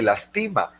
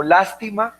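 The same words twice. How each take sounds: First: Lastima said as las-TÍ-ma; stress on middle syllable. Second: Lástima said as LÁS-ti-ma; stress on first syllable. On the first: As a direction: punch the TI in lastima. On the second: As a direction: punch the opening syllable of lástima. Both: Shown as a demonstration. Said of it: "el acento al momento de pronunciar".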